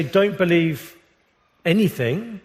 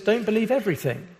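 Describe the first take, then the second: First: "anything" set apart after a pause; a slight beat before "anything", then weight on it; stress on anything. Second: "everything" leaned on, said fast; the weight falls on "everything", not on "Don't"; stress on everything. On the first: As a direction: let "anything" land on its own. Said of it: "He says, "Don't believe everything". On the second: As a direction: make "everything" the point of the line. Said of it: "John does not say, "Don't believe anything". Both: Retold or imitated.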